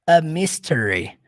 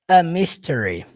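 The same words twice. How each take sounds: First: The article has a short, reduced vowel. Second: The same.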